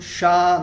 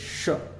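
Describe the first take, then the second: First: The vowel is held long. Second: The vowel is kept short. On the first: The speaker calls it wrong. "não é um, um A longo" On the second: The speaker calls it right. "o sha tem um A curto"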